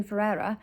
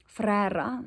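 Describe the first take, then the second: First: Said in the usual way. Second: Ferreira with rolled r, fuh-REH-ra; Afrikaans pronunciation. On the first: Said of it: "let me say that proper in South African". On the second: Shown as a demonstration. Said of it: "let me say that proper in South African, Afrikaans accent".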